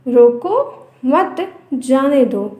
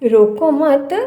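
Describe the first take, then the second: First: The pause comes after the first word. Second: The pause comes after the second word. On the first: Stop them; do not let them go. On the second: Do not stop them; let them go.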